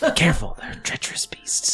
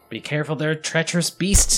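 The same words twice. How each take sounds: First: It is said in a quiet whisper. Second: It is said in a normal, fairly loud voice. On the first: The speaker calls it right. "I whisper" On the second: The speaker calls it wrong. "not in that loud a voice"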